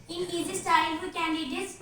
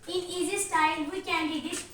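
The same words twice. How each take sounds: The two takes are said the same way.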